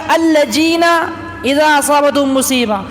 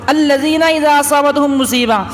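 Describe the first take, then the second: First: The first word has a j sound. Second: The first word has a z-like sound. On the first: The speaker calls it wrong. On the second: The speaker calls it right.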